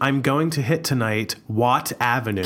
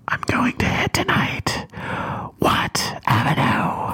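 First: It is said in a normal voice. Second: It is said in a menacing voice.

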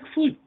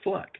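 First: The vowel is long, rhyming with 'duke'. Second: The vowel is short, rhyming with 'duck'. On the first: The speaker calls it wrong. "That looks like Fluke" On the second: The speaker calls it right. "but she pronounces it Fluck"

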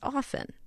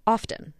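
First: The T sound in the middle is silent. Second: The T sound in the middle is pronounced. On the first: "you don't pronounce the T in often, it's often" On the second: "my editor always used to yell at me for saying often"

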